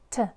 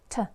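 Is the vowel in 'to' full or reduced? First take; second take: reduced; reduced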